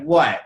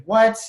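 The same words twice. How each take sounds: First: "What" with a short falling tune; inviting, tell-me. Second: High, rising, louder shocked WHAT. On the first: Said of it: "Tell me". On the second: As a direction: exclaim "What" in disbelief, pitch shooting up. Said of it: "be in shock and disappointment". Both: Shown as a demonstration.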